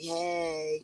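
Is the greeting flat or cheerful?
flat. The greeting sounds flat and unenthusiastic.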